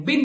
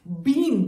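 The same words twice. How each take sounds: First: "बिन" with a short clipped i; short vowel. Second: "बीन" with a long stretched ee; long vowel. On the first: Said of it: "B I N है". ("बिन" छोटी इ के साथ) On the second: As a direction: hold the ee in "बीन". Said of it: "B double E N है". ("बीन" लंबी ई के साथ) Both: Shown as a demonstration.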